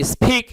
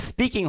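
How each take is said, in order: First: স্পিক as "s-pheek", with a puff on p; aspirated p, wrong. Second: স্পিকিং with a plain unpuffed p; unaspirated p, correct. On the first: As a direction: overdo the breath after p in স্পিক. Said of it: "ফ উচ্চারণ হবে না". (স্পিক, প-কে ফ-এর মতো করে) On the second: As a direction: say স্পিকিং with no breath after p. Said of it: "এটা স্পিকিং হবে কিছুটা". (স্পিকিং, ফ নয়, প ধ্বনি) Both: Shown as a demonstration.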